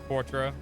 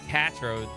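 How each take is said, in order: First: The name begins with a kw sound. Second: The name begins with a plain k sound. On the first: The speaker calls it right. "Qua as in quarter" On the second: The speaker calls it wrong. "that doesn't sound right to me"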